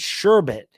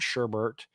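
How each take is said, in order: First: The second syllable has no R sound. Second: The second syllable has an extra R sound. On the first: The speaker calls it right. "There's no R there" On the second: The speaker calls it wrong. "It's not S H E R B E R T"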